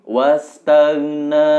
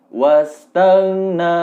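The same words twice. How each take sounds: Both takes have the same delivery.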